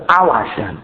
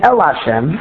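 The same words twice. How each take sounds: First: Al Hashem, opening on an A vowel. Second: El Hashem, opening on an E vowel. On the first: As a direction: say "Al" with an ah sound. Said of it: "the pasuk says Al Hashem". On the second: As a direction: say "El" with an eh sound. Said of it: "instead of saying El Hashem". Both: Shown as a demonstration.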